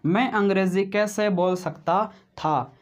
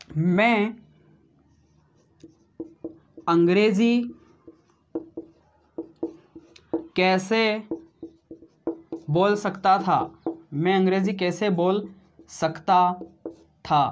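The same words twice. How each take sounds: First: Said in the usual way. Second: One word at a time, long gaps; dictating word by word; slow dictation. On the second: Shown as a demonstration. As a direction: spell it out for the class to write. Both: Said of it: "क्या बोला मैंने?".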